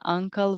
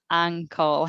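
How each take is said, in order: First: The first vowel sounds like the vowel in cup. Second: The first vowel sounds like the vowel in cat. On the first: The speaker calls it wrong. "I didn't pronounce it correctly. It's not an uncle" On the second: The speaker calls it right. "but it's an ankle. I believe the correct pronunciation"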